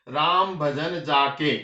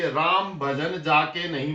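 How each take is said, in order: First: "Ram भजन जाके" read slowly, with a clear break right after "जाके"; pause after jaake. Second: "Ram भजन जाके नहीं" read slowly as one phrase, breaking only after "नहीं"; pause after nahin. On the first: Teacher rereading the verse to show the comma moved after "जाके", slow phrasing. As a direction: stop on "जाके" as if a comma follows it. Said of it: "अल्प विराम जो हमने जाके के साथ लगाया है". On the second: Teacher reading the verse to students to show the comma after "नहीं", slow phrasing. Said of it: "मैंने यहाँ अल्प विराम लगाया है". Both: Shown as a demonstration.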